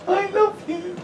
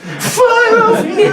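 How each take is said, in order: First: High, soppy tipsy declaration; a lightly voiced drunk, gushing wife; drunk emotional wife. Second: Very high, loud, slow blubbering; hammed-up drunken wail through snot; snotty drunk sobbing. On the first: Wife drunk after a barbecue, high and soppy. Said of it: "a little bit emotional too". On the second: Drunk wife sobbing love at husband, loud and high. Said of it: "about the snot".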